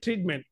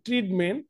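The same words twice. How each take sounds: First: The first t sound is aspirated, with breath. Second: The first t sound is plain, without aspiration. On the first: The speaker calls it right. "ওটা যে ঠ উচ্চারণ হবে" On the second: The speaker calls it wrong. "যেটা আমরা বলি ট্রিটমেন্ট"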